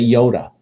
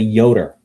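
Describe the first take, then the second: First: The word ends in a plain vowel. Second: The word ends in an R sound. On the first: "we don't say Yoda" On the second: "We put an R at the end of it"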